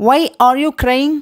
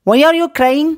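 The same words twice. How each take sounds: First: Very slow, words drawn apart; slow model phrase. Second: Said in the usual way. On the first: Shown as a demonstration. Teacher to Tamil learners, slow clear model question. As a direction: lay it out slowly for learners. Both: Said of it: "teacher models English phrase twice".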